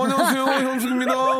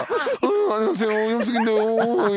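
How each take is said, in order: First: High laughing Hyun-sook greeting; Hyun-sook impression. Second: High, bright impersonation of Hyun-sook; Hyun-sook impression. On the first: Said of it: "지금 이게 현숙이에요". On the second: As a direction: imitate Hyun-sook's greeting, pitched up. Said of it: "현숙 성대모사".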